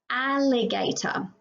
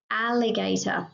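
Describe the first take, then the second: First: "Alligator" stretched, opening "a" lingered on; a slow, careful "Alligator" for a young class; slow sound-out. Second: Said in the usual way. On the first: Shown as a demonstration. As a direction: draw out "Alligator" so kids hear the "ah". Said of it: "teacher sounds out word". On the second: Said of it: "repeat plain".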